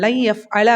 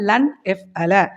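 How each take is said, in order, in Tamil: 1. n ஒலி அடுத்து வரும் y ஒலியுடன் இணைந்துவிடுகிறது. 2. n ஒலி y க்கு முன் தெளிவாக உச்சரிக்கப்படுகிறது. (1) "இந்த நூனு யாவும் ஜாயின் ஆகும்போது ... லை எஃப் அலன்னு" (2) "லன்னுன்னே நீங்கள் சொல்லலாம்"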